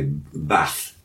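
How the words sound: It is said in a northern English accent. "we say bath in the north"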